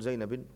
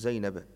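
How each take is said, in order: First: The name ends with an i-vowel ending. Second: The name ends with an a-vowel ending. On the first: The speaker calls it wrong. "ولا تقول زينب" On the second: The speaker calls it right. "تقول زينب"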